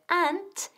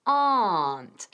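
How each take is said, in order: First: Aunt said with a short flat a like ant. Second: Aunt said with a long open ah, like ont. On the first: Teacher demoing aunt with a short a. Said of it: "pronunciar la diferencia muy bien entre aunt y". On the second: Teacher demoing aunt with a long a. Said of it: "aunt con una A muy larga". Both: Shown as a demonstration.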